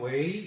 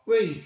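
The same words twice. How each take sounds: First: The syllable is said with a rising tone. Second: The syllable is said with a falling tone. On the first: It is used as a verb meaning become, be or do. "이성으로" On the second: It is used as a preposition meaning for or to. "이렇게 사성으로 읽는 겁니다"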